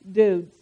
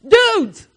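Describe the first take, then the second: First: Said in the usual way. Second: A high, louder mock hail of Dudes!; mock call out. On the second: Calling the men over, a high mock hail. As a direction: call Dudes! out high to get the men's attention. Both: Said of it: "with all my femininity".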